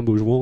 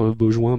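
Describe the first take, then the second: First: Beaujouan said as boʒwɑ̃, the ending -ouan open, like "jwan"; the right version, Beaujouan with an open -ouan ending; correct pronunciation. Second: Beaujoin said as boʒwɛ̃, with a nasal -oin ending; the wrong version, Beaujoin pronounced like "bo-jwin"; mistaken pronunciation. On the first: (prononciation correcte : Beaujouan en boʒwɑ̃) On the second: (prononciation fautive : Beaujoin en boʒwɛ̃) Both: Shown as a demonstration. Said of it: "mais c'est Beaujouan".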